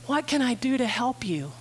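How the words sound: The question sounds warm and sympathetic. The helper feels her pain and agrees it is unfair. The speaker calls it right. "He feels her pain"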